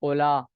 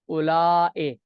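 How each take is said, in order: First: The word ends in a short vowel, no glottal stop. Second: The word ends in a long vowel and glottal stop. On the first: "ये कसरन है" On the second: "मद के साथ"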